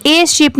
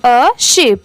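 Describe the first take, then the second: First: A sheep with a said as ए; a said like the letter name ए in a sheep; a sheep read with a full ए sound; wrong a. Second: A sheep with a short अ sound; a in a sheep said as a quick unstressed अ; a sheep read with a weak अ, not ए; right a. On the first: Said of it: "इसे a sheep नहीं पढ़ेंगे". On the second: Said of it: "वहाँ पर उसे पढ़ेंगे a sheep". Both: Shown as a demonstration.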